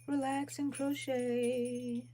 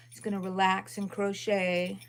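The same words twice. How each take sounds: First: Slow, higher and softer, words stretched; drawn-out repeat. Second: Said in the usual way. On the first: Real, not acted. Crocheter musing to herself on livestream, slow drawn-out words. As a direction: stretch "Relax and crochet" out slowly and softly.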